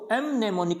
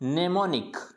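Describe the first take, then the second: First: The m at the start is sounded. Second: The m at the start is silent. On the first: The speaker calls it wrong. "इसको एम नेमोनिक नहीं पढ़ेंगे" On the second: The speaker calls it right. "इसको क्या पढ़ना है?"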